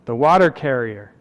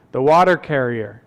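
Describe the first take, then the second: No difference in how they are said.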